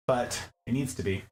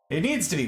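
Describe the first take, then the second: First: Said in the usual way. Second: "It needs to be." with "needs" hit harder; emphatic repeat. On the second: Shown as a demonstration. Streamer stressing the table must hold weight, emphatic. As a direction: press on "needs". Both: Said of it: "how I can emphasize that more".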